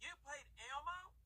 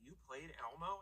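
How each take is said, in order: First: It is said in a put-on character voice. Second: It is said in the speaker's normal voice.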